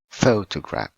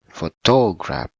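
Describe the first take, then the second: First: The stress is on the first syllable. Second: The stress is not on the first syllable. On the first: The speaker calls it right. "but photograph. ... the first one on the first syllable" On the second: The speaker calls it wrong. "Not photograph"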